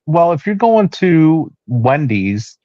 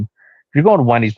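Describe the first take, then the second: First: Higher, slow sing-song wife imitation; drawn-out mimic of wife's suggestion; quoting wife. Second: Said in the usual way.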